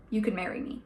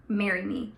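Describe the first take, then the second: First: Soft, low-key proposal; very softly. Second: Only slightly firmer repeat of a proposal; mildly raised, still understated; a little louder. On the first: Reading a proposal from the book aloud, softly. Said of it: "Very softly". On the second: Reading a repeated proposal from the book, a little louder. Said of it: "this time louder". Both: A narrator's reading.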